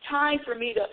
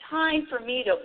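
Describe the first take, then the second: No difference in how they are said.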